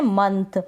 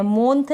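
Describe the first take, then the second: First: मंथ said with a short a, as in "munth"; correct pronunciation. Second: मोंथ said with a long o, as in "mont"; wrong vowel demo. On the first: Teacher models the right sound for students, मंथ with short a. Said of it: "हम पढ़ रहे हैं मंथ". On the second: Teacher shows students the mistake to avoid, मोंथ with o. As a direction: demonstrates the wrong reading मोंथ with an o sound. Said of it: "मोंथ नहीं पढ़ रहे हैं". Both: Shown as a demonstration.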